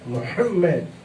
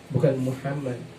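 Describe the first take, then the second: First: The m sound is doubled with a jolt. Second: The m sound is short with no jolt. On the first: The speaker calls it right. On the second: The speaker calls it wrong.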